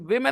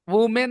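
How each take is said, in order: First: The first syllable has an 'i' vowel. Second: The first syllable has an 'oo' vowel. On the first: The speaker calls it right. "वी हो गया" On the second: The speaker calls it wrong. "वुमेन नहीं"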